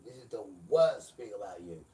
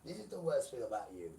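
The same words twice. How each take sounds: First: The word worst hammered much louder; loud repeat. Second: Said in the usual way. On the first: Shown as a demonstration. Preacher shouting at the congregation, repeating the line loud.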